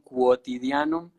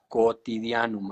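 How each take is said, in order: First: The word begins with a 'kw' sound. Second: The word begins with a plain 'k' sound. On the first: The speaker calls it wrong. "Dijeron quotidianum y pues no, no es así" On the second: The speaker calls it right. "es cotidianum"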